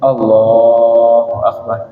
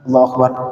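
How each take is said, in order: First: The phrase is stretched out long and slow. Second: The phrase is said short and quick. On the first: The speaker calls it right. "jadi takbir dipanjangin" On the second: The speaker calls it wrong.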